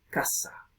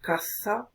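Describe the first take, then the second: First: Casa said with a plain s, almost whispered; casa with a clean s sound, breathy and soft; distinción demo. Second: Caza said with a clear interdental th; distinción demo. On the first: Teacher contrasting caza and casa for students, casa with s. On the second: Teacher contrasting caza and casa for students, caza with th. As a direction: say caza as kaθa, tongue between the teeth. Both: Shown as a demonstration. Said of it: "un contraste entre palabras como".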